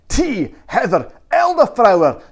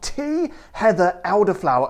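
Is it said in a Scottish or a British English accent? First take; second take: Scottish; British English. First: It is said in a Scottish accent. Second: It is said in a British English accent.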